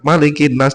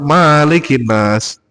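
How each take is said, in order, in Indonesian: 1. Vokal pertama 'ma' pendek. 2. Vokal pertama 'ma' panjang. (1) "kalau mau membaca" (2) "kebanyakan jamaah Malikin Nas gitu"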